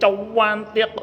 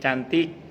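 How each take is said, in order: First: The word is said with a u added after c. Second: The word is said plainly, without an added u. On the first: She is truly very beautiful. "itu berarti asli cantik gitu" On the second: She is not really beautiful. "nggak cantik berarti"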